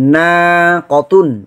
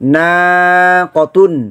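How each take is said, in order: Both takes have the same delivery.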